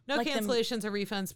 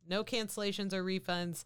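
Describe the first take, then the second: First: It is read very quickly. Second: It is read at a normal pace.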